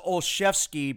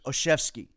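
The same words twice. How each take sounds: First: The L sound is pronounced in the name. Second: The L sound is left out of the name. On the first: The speaker calls it wrong. "I thought it was Olszewski" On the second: The speaker calls it right. "you don't pronounce the L and it's just Olszewski"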